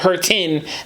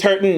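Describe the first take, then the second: First: The T and the -ing ending are clearly pronounced. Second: The T is softened and the ending is a neutral vowel.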